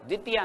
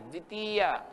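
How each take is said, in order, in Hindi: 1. दूसरे अक्षर का स्वर छोटा है। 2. दूसरे अक्षर का स्वर लंबा है। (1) "द्वितीया नहीं" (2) "ती को बड़ा बोलना"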